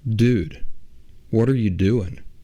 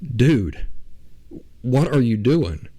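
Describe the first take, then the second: First: It is said in a calmer, less urgent voice. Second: It is said in a panicked, urgent voice.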